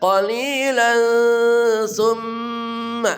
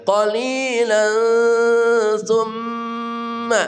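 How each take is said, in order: No difference in how they are said.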